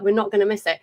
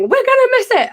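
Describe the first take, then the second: First: Said in the usual way. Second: High-pitched imitated panic; mock frantic wail, far higher; Becky panicking. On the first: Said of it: "And I was like". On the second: Friend panicking in traffic on way to concert, frantic. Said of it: "Becky was losing her shit".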